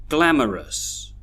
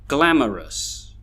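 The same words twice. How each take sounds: The two takes are said the same way.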